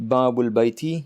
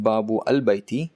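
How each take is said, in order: First: The first word runs straight into the article. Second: The article's alif is sounded as a separate syllable. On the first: The speaker calls it right. "To read babul baiti" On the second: The speaker calls it wrong. "if you read it like that, babu al baiti, then it is incorrect"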